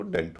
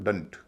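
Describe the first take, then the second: First: "डेंट" with a full, clear e vowel; stressed vowel. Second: "डंट" with a reduced schwa in place of e; light uh vowel in "डंट"; weak vowel. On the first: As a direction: say "डेंट" as a stressed syllable, full e as in a car dent. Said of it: "जब डीईएनटी पर stress होता है". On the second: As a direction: say "डंट" as an unstressed syllable, vowel weakened to a short uh. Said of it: "हल्का उच्चारण होगा". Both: Shown as a demonstration.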